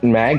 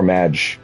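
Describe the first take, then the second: First: The word ends with a hard g sound. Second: The word ends with a soft j sound. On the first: "is it mag or madge?" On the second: "Should I be saying madge? Because magic?"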